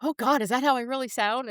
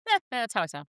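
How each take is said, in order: First: Higher-pitched mock horror; cringing dismay. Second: Mock shrug, opening on a dismissive "eh"; numb indifference. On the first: Host hearing first edited episode, cringing dismay. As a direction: wail it lightly, as if cringing at yourself. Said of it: "this is so cringy". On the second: Host by the third edit, indifferent shrug. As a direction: play having given up caring. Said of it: "I was numb to it".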